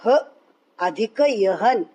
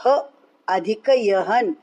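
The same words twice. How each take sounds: The two takes are said the same way.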